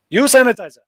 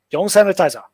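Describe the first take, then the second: First: Curt local staff. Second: Hong Kong English. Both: Retold or imitated. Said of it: "That's how they talk".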